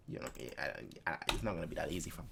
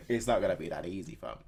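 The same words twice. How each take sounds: First: Muttered aside. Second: Said in the usual way. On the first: Real, not acted. Muttering quietly to himself.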